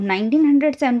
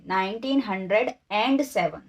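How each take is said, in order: First: Said in the usual way. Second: nineteen hundred, then a clearly marked एंड before seven; stress on एंड. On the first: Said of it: "नहीं". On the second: Shown as a demonstration. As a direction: set एंड apart as the added word in the year. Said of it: "and लगा देंगे".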